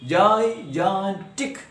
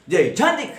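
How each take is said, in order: First: "gigantic" broken into three separate syllables. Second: "Gigantic" with a higher, forceful middle syllable; stress on second syllable. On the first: Teacher introduces the example word to students, syllable by syllable. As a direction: say "gigantic" slowly, one syllable at a time. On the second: Teacher shows students proper pronunciation, stress on the middle of "Gigantic". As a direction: hit the "gan" in "Gigantic" harder than the other syllables. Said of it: "with more stress or force or loudness". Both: Shown as a demonstration.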